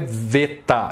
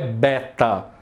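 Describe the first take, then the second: First: The word begins with a V sound. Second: The word begins with a B sound. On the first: The speaker calls it right. "A pronúncia em grego é veta" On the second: The speaker calls it wrong. "não é beta"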